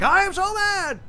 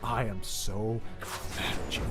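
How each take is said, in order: First: It is said loudly, in a big way. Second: It is said quietly, in a seething way.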